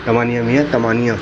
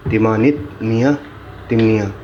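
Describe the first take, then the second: First: तमानिया with open a-sounds, ta-maa-ni-ya; correct pronunciation. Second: तिमानित with short i and final t, read as printed; misprinted pronunciation. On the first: Teacher correcting the book for students, clear correction. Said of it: "सही जो है". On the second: Teacher reading out another misprint, plain reading. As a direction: read the book's wrong तिमानित मियाँ as written. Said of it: "ये गलत है". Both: Shown as a demonstration.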